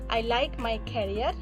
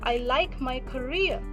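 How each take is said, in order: First: The stress is on the first syllable. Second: The stress is on the second syllable. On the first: The speaker calls it wrong. "So don't say" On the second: The speaker calls it right. "Instead, we will say"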